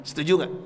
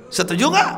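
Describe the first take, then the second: First: Said in the usual way. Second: High, rising call to the crowd; a preacher demanding agreement from the congregation; rallying question. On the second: Real, not acted. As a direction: pull the crowd into answering. Asks the crowd twice.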